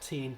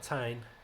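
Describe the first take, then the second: First: The syllable has an 'ee' vowel, like 'teen'. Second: The syllable has an 'eye' vowel, like 'tine'. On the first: The speaker calls it wrong. "not teen" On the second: The speaker calls it right. "but Tyne"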